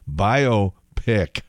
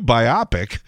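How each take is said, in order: First: It is said as bio plus pic. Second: It is said by-OP-ic, like myopic. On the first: The speaker calls it right. "as in biographical motion picture" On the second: The speaker calls it wrong. "you get to hear reporters mispronounce that too and say"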